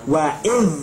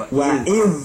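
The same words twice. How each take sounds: No difference in how they are said.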